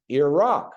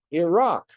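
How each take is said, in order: First: "Iraq" as ee-ROCK, loud on the second syllable; stress on ROCK. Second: "Iraq" as ee-ROCK, higher and loud, falling at the end; stress on ROCK again. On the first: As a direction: land hard on the rock in "Iraq". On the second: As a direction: repeat "Iraq" and hit the rock firmly. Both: Shown as a demonstration. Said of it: "put the accent, the emphasis on the rock".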